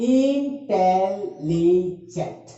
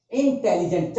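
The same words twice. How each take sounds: First: intelligent very slow, in four separate held syllables; broken into syllables. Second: Said in the usual way. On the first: Shown as a demonstration. Teacher splitting a word to count, intelligent syllable by syllable. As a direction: stretch out each syllable of intelligent. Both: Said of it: "अगर इसको भी तोड़ेंगे".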